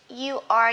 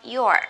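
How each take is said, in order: First: It is said as two separate words. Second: It is said as one contracted syllable.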